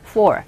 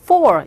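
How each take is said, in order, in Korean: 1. 짧고, 빠르고, 약합니다. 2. 길고, 꽉 차고, 강합니다. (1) "간단하게 짧게 약하게 for" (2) "이렇게 강하게 발음해 주시면 되겠습니다"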